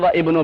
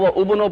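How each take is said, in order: First: The word ibnu begins with a separate i vowel. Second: The word ibnu begins with a separate u vowel. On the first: "ना वह इब्नो पढ़ेंगे" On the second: "ना तो वह उबनो पढ़ेंगे"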